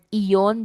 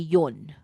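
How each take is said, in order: First: The word is said with its first vowel. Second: The first vowel is dropped from the word. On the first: "from the word iyon" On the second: "they just say yon"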